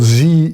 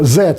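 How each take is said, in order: First: It is said the American way, like zee. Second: It is said the British way, like zed.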